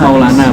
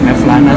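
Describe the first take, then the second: First: The name is said with a w sound, Maulana. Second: The name is said with a v sound, Mevlana. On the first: The speaker calls it right. "Hadis Maulana bacanya sebetulnya" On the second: The speaker calls it wrong. "orang-orang banyak kan bacanya Mevlana"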